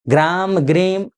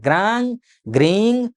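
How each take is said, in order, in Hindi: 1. हर शब्दांश बंद m ध्वनि से खत्म होता है। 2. हर शब्दांश नासिक्य गुंजन से खत्म होता है। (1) "नहीं बोलना है। वैयाकरणिक दृष्टिकोण से ये अशुद्ध है।" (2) "अंग वाला ङ, नासिका और मुंह से आपको उच्चारण करना"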